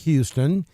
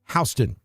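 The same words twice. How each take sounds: First: The name is said the Alabama way. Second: The name is said the Georgia way. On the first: "over here in Alabama, we pronounce it Houston" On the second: "Georgia pronounces it Houston"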